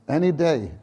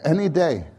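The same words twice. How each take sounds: The two takes are said the same way.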